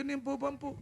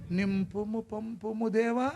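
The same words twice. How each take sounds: First: Said in the usual way. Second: Slow solemn prayer voice on నింపుము పంపుము దేవా; solemn slow invocation to God; drawn-out prayer. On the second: Shown as a demonstration. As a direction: intone it slowly like a priest.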